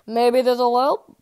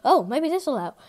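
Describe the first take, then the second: First: Drawled hopeful musing; slow drawn-out repeat. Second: Said in the usual way. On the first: Acted. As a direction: stretch out "Maybe this'll help" very slowly. Repeats his hopeful idea.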